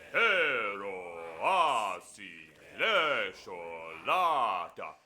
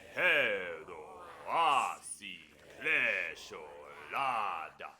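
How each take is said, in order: First: It is said in a deeper, manlier voice. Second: It is said in a normal speaking voice.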